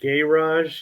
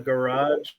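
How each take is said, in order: First: It is said with a British pronunciation. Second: It is said with an American pronunciation. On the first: "you guys call it garage" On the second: "we call it a garage"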